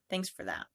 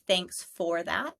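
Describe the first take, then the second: First: The word 'for' is reduced to 'fur'. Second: The word 'for' is said in full. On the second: "change a sentence like"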